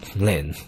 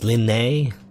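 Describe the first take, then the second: First: The name is said as one syllable. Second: The name is said as two syllables. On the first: "the same way. Or I don't know, is it I assume this E is silent" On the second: "Unless it's pronounced Linnae. I don't think that's correct though"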